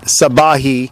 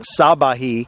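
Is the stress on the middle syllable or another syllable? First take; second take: middle syllable; another syllable. First: The stress is on the middle syllable. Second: The stress is not on the middle syllable. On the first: The speaker calls it right. "the emphasis on is on the middle syllable" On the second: The speaker calls it wrong. "It's not Sabahi"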